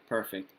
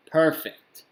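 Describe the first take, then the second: First: Said in the usual way. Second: Loud, high, happy exclamation; excited. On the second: Real, not acted. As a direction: burst out with delight. Streamer reacts to audio feedback.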